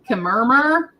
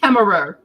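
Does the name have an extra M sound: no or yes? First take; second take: yes; no. First: The name has an added extra M sound. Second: The name has no added extra M sound. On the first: The speaker calls it wrong. "keeps calling Bridget Kemmerer" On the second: The speaker calls it right. "There's no another M"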